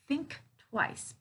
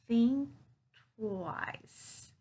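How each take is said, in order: First: The k sound at the end of think is pronounced. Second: The k sound at the end of think is dropped. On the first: The speaker calls it wrong. "it's not think twice" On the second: The speaker calls it right. "I'm not pronouncing the voiceless K here"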